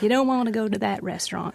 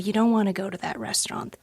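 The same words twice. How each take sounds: First: It is said in a put-on southern accent. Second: It is said in the speaker's ordinary accent.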